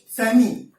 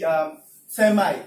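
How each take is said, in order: First: "semi" with a short "ee" at the end, SEM-ee; "semi" the British way. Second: "semi" said slowly as SEM-eye; "semi" the American way. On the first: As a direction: say "semi" ending in "ee". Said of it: "Then British". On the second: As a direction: draw out "semi" with "eye" at the end. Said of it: "American English, they pronounce". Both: Shown as a demonstration.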